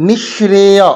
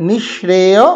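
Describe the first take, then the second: The two takes are said the same way.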